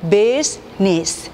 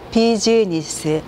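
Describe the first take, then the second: First: The word is said with fewer, linked syllables. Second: The word is said as four separate syllables. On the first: The speaker calls it right. "실제 보시면" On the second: The speaker calls it wrong. "이렇게 네 개의 소리를 말하지만"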